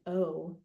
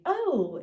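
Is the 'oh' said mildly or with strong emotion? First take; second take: mildly; strong emotion. First: It is said with mild emotion. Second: It is said with strong emotion.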